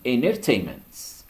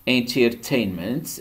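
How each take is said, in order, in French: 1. Le T après le N est supprimé. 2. Le T après le N est prononcé.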